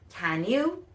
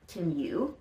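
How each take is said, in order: First: Both words are loud, clear and fully pronounced. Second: Both words are quiet, quick and reduced together. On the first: "can you becomes loud and clear with a different pronunciation" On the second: "remember that with connected speech, the question would be"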